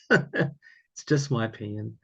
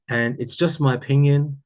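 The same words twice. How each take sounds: First: Drawn out for emphasis; slow and deliberate. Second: Said in the usual way. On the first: Real, not acted.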